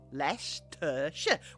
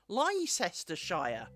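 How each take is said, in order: First: Many letters are dropped, in a British accent. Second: Most written letters are sounded, in an American accent. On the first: The speaker calls it right. "We don't say that. ... We've dropped half those letters" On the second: The speaker calls it wrong. "as my beautiful American friends would pronounce it by default"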